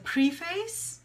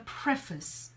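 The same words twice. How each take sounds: First: The second part sounds like the word face. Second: The second part does not sound like face. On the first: The speaker calls it wrong. "Some people would say it's a preface" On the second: The speaker calls it right. "but really the pronunciation is the preface"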